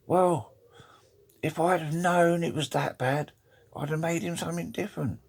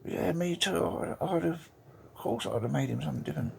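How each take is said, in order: First: High-pitched lightly wailing wife voice; English lady. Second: Australian lady. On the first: English wife at the joint funeral, high put-on lady voice. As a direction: pitch it well up as an English widow. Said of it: "the English lady says". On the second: Australian wife agreeing at the funeral, high put-on lady voice. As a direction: pitch it up as an Aussie widow, quickening at the end. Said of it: "the Australian lady goes". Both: Acted.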